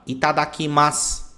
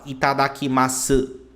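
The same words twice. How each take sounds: First: The word ends with a bare s sound. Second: The word ends with a full u vowel. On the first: The speaker calls it right. "quando a palavra termina com s ... você vai falar itadakimasu" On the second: The speaker calls it wrong. "você não vai falar itadakimasu"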